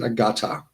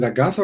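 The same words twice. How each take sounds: First: Agatha with a hard t, no th; T pronunciation. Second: "Agatha" with th as in "think"; TH pronunciation. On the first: Streamer repeats his name question, Agatha with a plain T. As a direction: say "Agatha" as "a-GAH-ta". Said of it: "just pronounce the T". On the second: Streamer repeats his name question, Agatha with th. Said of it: "with a T H". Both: Shown as a demonstration.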